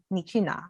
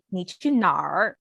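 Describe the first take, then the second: First: "你去哪?" said softly with a plain final "哪", no R sound; southern Mandarin "你去哪?", ending clean on "哪" without erhua. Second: "你去哪儿?" with a curled er sound on the end; Beijing-style "你去哪儿?", rolling the final "儿" into an R. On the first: Showing friends the southern Mandarin way, soft and without the R. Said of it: "So us southern people, we say". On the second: Showing friends the Beijing way, with the curled R ending. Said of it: "adding the R at the end". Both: Shown as a demonstration.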